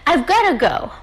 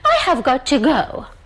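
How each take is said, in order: First: Have is contracted but got to stays separate. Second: Every word is said fully and separately. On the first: "You can say" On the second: "you don't need to say"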